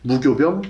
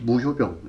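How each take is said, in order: First: The second syllable starts with a g sound. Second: The second syllable starts with an h sound. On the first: "교자를 효라고 발음하기도 하기 때문에" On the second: "이렇게 똑같이 발음합니다"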